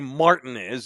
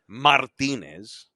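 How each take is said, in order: First: It is said with a heavily anglicized pronunciation. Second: It is said with a full Spanish pronunciation. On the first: It sounds careless toward the name. "don't say Martinez either" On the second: It sounds like a native speaker's version. "You don't have to say Martinez"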